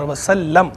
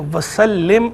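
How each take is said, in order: First: वसल्लम ending in "-lam"; past-tense wasallam. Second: वसल्लिम drawn out, ending in "-lim"; imperative wasallim. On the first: Scholar explaining the grammar, वसल्लम with "-lam". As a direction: clear short "a" closing वसल्लम. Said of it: "ये है माजी का सीगा". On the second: Scholar explaining the grammar, वसल्लिम with "-lim". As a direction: clear short "i" closing वसल्लिम. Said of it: "ये माजी का सीगा नहीं है". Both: Shown as a demonstration.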